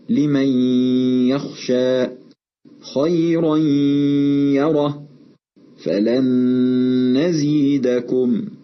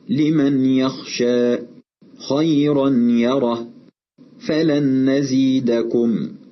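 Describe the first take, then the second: First: The n merges into the next sound with nasal hum. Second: The n is pronounced clearly before the next sound. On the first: The speaker calls it right. "أدخلنا النون الساكنة والتنوين في حروف الإدغام، وحدثت الغنة" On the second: The speaker calls it wrong. "ومن الخطأ أن نظهر النون الساكنة أو التنوين"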